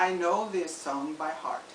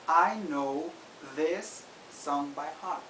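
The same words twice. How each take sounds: First: The sentence is spoken at normal conversational speed. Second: The sentence is spoken slowly and deliberately.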